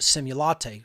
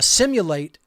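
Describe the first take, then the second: First: The word ends like the word 'latte'. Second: The word ends like the word 'late'. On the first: It is a pun on a coffee drink. "they obviously pronounce it simulate" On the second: It is the ordinary verb. "it could be the way that you say it"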